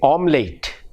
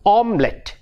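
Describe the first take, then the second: First: The final syllable sounds like 'late'. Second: The final syllable sounds like 'lit'. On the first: The speaker calls it wrong. "We say omelette ... we mispronounce the word" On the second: The speaker calls it right. "The word should be omelette, omelette, not late"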